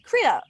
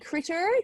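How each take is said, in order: First: The ending is said with an 'ah' sound. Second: The ending is said with an 'er' sound. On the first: "they would make the E R sound like an A. They'd say, ... critter. Like this" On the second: "instead of saying critter"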